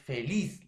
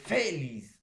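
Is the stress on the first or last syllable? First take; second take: last; first. First: The stress is on the last syllable. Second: The stress is on the first syllable. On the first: The speaker calls it right. "La mayor fuerza de voz está en la última sílaba" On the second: The speaker calls it wrong. "O es feliz. No"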